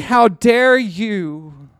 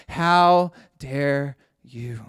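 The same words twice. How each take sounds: First: How dare you, louder and slow; Jesus to the elders, calling out louder; loud slow rebuke. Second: Slow rebuke. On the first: Jesus calling out the rich elders, a loud slow rebuke. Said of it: "He was saying". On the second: Jesus to the scribes and Pharisees, a slow heavy rebuke. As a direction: drag out how dare you, slow and heavy. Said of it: "he was saying to the scribes". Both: Acted.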